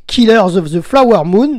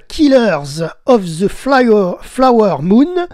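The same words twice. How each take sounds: First: "Killers of the Flower Moon" said in one smooth go with a laugh, in French-accented English. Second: "Killers of the Flower, Flower Moon" in halting French-accented English, breaking off after "Flower" and restarting; stumbling English title. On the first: Radio host retries the film title, laughing at his French-accented English. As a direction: laugh it off and nail the title this time. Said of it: "Désolé pour mon accent anglais".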